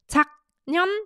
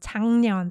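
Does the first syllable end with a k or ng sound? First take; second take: k; ng. First: The first syllable ends with a k sound. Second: The first syllable ends with an ng sound. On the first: The speaker calls it wrong. "it's not pronounced 작년" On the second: The speaker calls it right. "it's pronounced 작년, 작년. So you can hear the 이응 받침 for uh, in place of 기역 받침"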